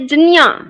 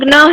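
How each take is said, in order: First: The cluster is pronounced like jnya. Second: The cluster is pronounced like gna. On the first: Every component sound is made audible. "प्रत्येक वर्ण का उच्चारण सुनाई दे" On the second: This is the Gujarati pronunciation. "Gujarati में ग्न है"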